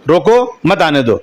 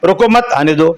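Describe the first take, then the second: First: There is a pause right after the first word. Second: There is a pause right after the second word. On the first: Stop them, do not let them come. "रोको के बाद आप full stop लगा दे, वो लगा दी comma" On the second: Do not stop them, let them come. "यानी आने भी दो"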